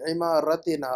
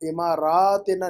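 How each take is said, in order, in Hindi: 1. र के बाद का स्वर छोटा है। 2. र के बाद का स्वर लंबा है। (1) "रा के बाद अलिफ नहीं चाहिए" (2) "इमारातिना नहीं"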